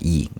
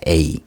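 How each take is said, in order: First: The vowel is said like 'ee'. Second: The vowel is said like 'ay'. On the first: This is how modern Greek reads the letter. "현대 그 헬라어에서는 E 발음을 해요" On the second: This is an older way of reading the letter. "어떤 분들은 A 뭐 이렇게 발음하는 경우도 있어요"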